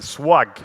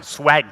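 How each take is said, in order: First: Swag with an open back "ah" vowel; trying a pronunciation. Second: Swag with a front "a" as in cat; trying another pronunciation. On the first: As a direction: say Swag like "swahg", French-accented. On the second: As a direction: switch swag to the flatter English vowel. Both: Shown as a demonstration. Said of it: "How should I say it?".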